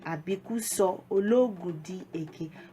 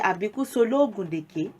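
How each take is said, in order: First: Each word is said separately and in full. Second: It is said quickly, with words run together.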